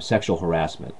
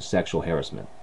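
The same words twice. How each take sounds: First: It uses the American West Coast pronunciation. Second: It uses the American East Coast pronunciation. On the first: "that would be called here on the West Coast" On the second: "on the East Coast, they pronounce it"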